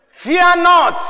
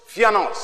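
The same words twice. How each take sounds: First: Fear not, high and loud; proclaimed. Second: Said in the usual way. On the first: Real, not acted. Preacher booming scripture to the church, high and loud. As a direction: ring it out to the congregation. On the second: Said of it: "repeating the phrase plainly".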